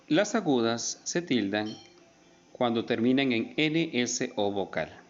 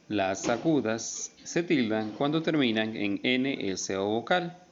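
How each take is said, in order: Both takes have the same delivery.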